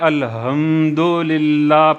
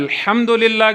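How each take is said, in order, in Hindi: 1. h एक सादी, हल्की सांस है। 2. h गले से निकली गहरी ध्वनि है। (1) "पढ़ रहे होते हैं" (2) "के बजाय"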